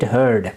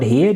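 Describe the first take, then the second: First: The vowel sounds like the one in 'bird'. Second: The vowel sounds like the one in 'beard'. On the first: The speaker calls it right. "you need to know the correct pronunciation" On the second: The speaker calls it wrong. "It's not heard"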